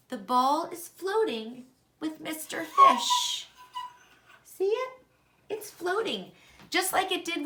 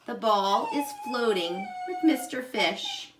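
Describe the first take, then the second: First: Thrilled to see it float; The ball is floating said high and delighted; excited. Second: Said in the usual way. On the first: Real, not acted. Excited discovery in experiment.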